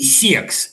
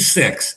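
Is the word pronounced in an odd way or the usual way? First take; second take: odd; usual. First: The word is pronounced in an odd way. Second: The word is pronounced in the usual way. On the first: "Вы как-то странно говорите" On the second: "вместо"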